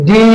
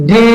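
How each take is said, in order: Both takes have the same delivery.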